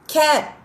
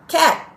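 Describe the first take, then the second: First: The word ends sharply on the final t. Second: The word ends sharply on the final t.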